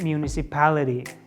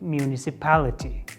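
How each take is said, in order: First: The T is softened to a D-like flap. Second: The T is pronounced as a clear T. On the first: The speaker calls it right. "They mostly change the T to D letter" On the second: The speaker calls it wrong. "Native speakers never say like municipality"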